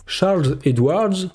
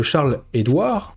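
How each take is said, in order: First: Slow, clumsy French-accented English; bad English accent. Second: Said in the usual way. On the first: Shown as a demonstration. Vlogger repeating an analyst's name in English, bad accent. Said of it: "avec un accent pourri en plus". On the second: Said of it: "en anglais, quasiment la même chose".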